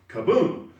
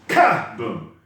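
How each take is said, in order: First: The stress is on the second syllable. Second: The stress is on the first syllable. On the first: The force goes where it belongs. The speaker calls it right. "it should be kaboom" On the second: The force goes into the wrong part of the move. The speaker calls it wrong. "the boom loses its boom"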